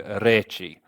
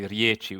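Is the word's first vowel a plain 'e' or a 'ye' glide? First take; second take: plain e; ye glide. First: The first vowel is a plain 'e'. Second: The first vowel is a 'ye' glide. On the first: This is the Ekavian form used in Serbian. "we'd say reči" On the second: This is the Jekavian form used in Montenegro and Croatia. "we wouldn't say riječi"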